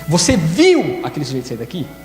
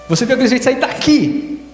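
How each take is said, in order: First: The word viu carries the emphasis. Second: The word daqui carries the emphasis. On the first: Asks whether it was really seen, not heard. "A segunda é se você viu mesmo ou se você ouviu" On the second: Asks whether it was from here he left. "foi daqui que ele saiu?"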